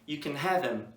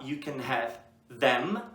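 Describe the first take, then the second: First: Them is reduced and joined onto have. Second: Them is said fully as a separate word. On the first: "tu pode juntar o have com o them" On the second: "tu pode falar you can have them"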